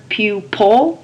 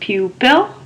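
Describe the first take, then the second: First: The second syllable does not sound like 'pill'. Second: The second syllable sounds like 'pill'. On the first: The speaker calls it wrong. "You may pronounce the word pupil" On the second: The speaker calls it right. "the correct pronunciation is pupil"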